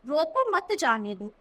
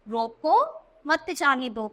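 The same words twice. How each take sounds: First: It is read evenly without a pause. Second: There is a pause after the first word. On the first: "अब देखो हमने normal पढ़ा" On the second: "यानी उसे रोको जाने मत दो"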